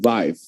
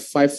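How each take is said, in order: First: It starts with a thick v sound, lip bitten. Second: It starts with a plain, light f sound. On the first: The speaker calls it right. "tapi five" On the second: The speaker calls it wrong. "jangan bilang five five lagi"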